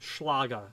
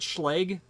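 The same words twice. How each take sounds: First: The name is said with a German pronunciation. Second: The name is said with an American Chicago pronunciation. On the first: This is the original way of saying it. "it's properly pronounced in German, Schlage" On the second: This is the local way of saying it. "We call it Schlage. We're from Chicago. That's how we pronounce it"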